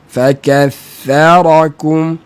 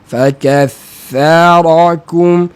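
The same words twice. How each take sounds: The two takes are said the same way.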